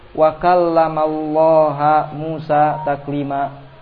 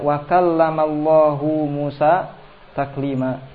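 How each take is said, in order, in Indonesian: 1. Kata Allah berakhir dengan vokal 'a'. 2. Kata Allah berakhir dengan vokal 'u'. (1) "Allaha difatah" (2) "Padahal Rasul mengucapkannya"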